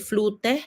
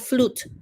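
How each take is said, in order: First: An extra vowel sound follows the final t. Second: The word ends on the t sound. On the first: The speaker calls it wrong. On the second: The speaker calls it right.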